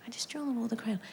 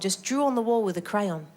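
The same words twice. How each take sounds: First: Whispered under the breath. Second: Said in the usual way. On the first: Shown as a demonstration. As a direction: hush it like a secret. Whispered repeat of kid line.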